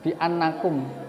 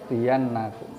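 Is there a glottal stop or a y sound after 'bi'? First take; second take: glottal stop; y sound. First: A glottal stop comes before the second vowel. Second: A y sound comes before the second vowel. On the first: "hamzahnya fathah dan sebelumnya kasrah" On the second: "digantos ya"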